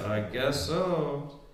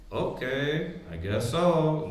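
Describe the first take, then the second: First: Lower, softer, slow eerie murmur; spooky voice. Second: A hint of an eerie, hollow voice; lightly spooked-out, lower, softer answer; spooky reply. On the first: Retold or imitated. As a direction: drag it out low like a ghost. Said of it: "you getting spooky like". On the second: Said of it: "Then you get real spooky on them".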